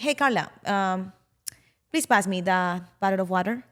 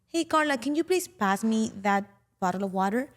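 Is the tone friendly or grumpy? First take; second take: grumpy; friendly. First: The voice sounds cold and grumpy. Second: The voice sounds warm and friendly.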